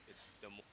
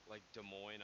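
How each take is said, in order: First: Des Moines as Deh Moyn, no S; silent S. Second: Des Moines said with a hissed S, Dez Moynz; pronounced with the S. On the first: Shown as a demonstration. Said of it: "There's no S". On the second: Retold or imitated. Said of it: "I'm like, "No, it's not Des Moines".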